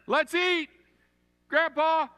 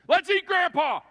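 First: There is a pause before Grandpa. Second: There is no pause before Grandpa.

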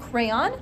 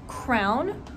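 First: The word is said with two syllables. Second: The word is said with one syllable. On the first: "do you pronounce it crayon"

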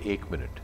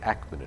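First: The first vowel is a standard Hindi 'e'. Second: The first vowel is opened toward 'a'. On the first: "a Bengali will not say ek minute" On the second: "They'll say ak minute"

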